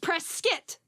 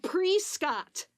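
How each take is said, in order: First: The ending sounds like 'kit', as in biscuit. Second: The ending sounds like 'cot', as spelled. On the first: The speaker calls it right. "Sounds like biscuit" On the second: The speaker calls it wrong. "like it's spelled Prescott"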